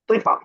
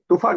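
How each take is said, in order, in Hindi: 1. बीच का स्वर आगे वाला 'i' स्वर है। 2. बीच का स्वर गोलाकार 'u' की ध्वनि है। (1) "तो पे जेर है" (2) "तूफा कैसे?"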